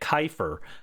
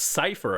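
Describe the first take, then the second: First: The name begins with a k sound. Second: The name begins with an s sound. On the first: The speaker calls it wrong. "I kept calling it Kiefer because I didn't know how to pronounce it" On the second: The speaker calls it right. "it's Cypher apparently"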